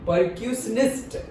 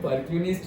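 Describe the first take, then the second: First: The word is said with a middle 'sh' sound. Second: The word is said without a middle 'sh' sound. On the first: The speaker calls it right. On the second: The speaker calls it wrong.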